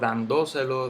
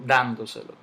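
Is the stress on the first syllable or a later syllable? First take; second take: later; first. First: The stress falls on a later syllable. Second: The stress falls on the first syllable. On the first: The speaker calls it wrong. "Yo no digo dándoselo" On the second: The speaker calls it right. "Yo digo dándoselo. El golpe cae en la"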